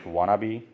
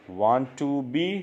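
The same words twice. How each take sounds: First: "wanna be" run together, wah-nuh-bee; reduced form; blended wanna be. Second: "want to be" stretched very slowly; drawn-out full form. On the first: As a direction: squash it into "wanna be". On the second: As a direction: spell out each word of "want to be". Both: Shown as a demonstration. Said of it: "want to be को बोलेंगे wanna be".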